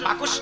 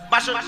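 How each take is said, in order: First: The k sound comes before the s sound. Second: The s sound comes before the k sound. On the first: The speaker calls it wrong. "বাকস নয়" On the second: The speaker calls it right. "উচ্চারণটা হবে বাসক পাতা"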